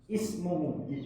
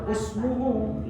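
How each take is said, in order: First: The word begins with an 'i' vowel. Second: The word begins with a 'u' vowel. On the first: This follows the exception for this word. The speaker calls it right. "setiap ada kalimat isim, nah dia dibaca i" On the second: This follows the general rule. The speaker calls it wrong. "kalau menuruti kaidah yang kita baca, dibaca usmuhu semestinya"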